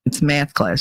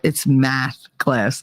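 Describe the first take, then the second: First: "math" with a tensed A, "meh-ath"; Jersey "math". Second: Slow, lower "math class" with flat open A; corrective "math". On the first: Shown as a demonstration. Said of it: "make fun of me 'cause I say". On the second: Retold or imitated. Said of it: "She goes".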